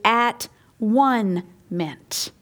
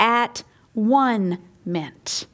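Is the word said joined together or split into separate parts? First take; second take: split; split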